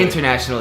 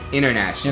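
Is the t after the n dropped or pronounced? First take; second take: pronounced; dropped. First: The t after the n is clearly pronounced. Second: The t after the n is dropped. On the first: The speaker calls it wrong. "It's not" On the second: The speaker calls it right. "We take out a lot of sounds, the T sounds"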